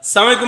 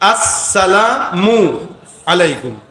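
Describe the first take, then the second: First: It begins directly with an s sound. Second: It begins with a clear opening vowel sound. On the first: It wishes death on the listener. The speaker calls it wrong. "সালামালাইকুম মানে কি জানেন? তোর মৃত্যু হোক।" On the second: It is a greeting of peace. The speaker calls it right. "শুরুর হামজা আর শেষের মিম।"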